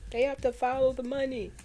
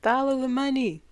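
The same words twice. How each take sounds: First: Higher, emphatic mock quote leaning on to; imitating John Lewis. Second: Loud, higher mock quote with weight on follow; imitating John Lewis. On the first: Imitating an upset politician again, higher and emphatic. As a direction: repeat the line as if upset, pressing the word to. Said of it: "He was so upset". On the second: Imitating a politician's upset rallying line, loud and higher. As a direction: boom it out like a fired-up speaker. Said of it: "That's how he said it".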